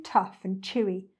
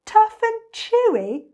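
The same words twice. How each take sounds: First: Said in the usual way. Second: High, loud, drawn-out disbelief; slow, high-pitched indignant echo; incredulous cry. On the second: A narrator's reading. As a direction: throw it back as an outraged question. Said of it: "cried the enormous crocodile".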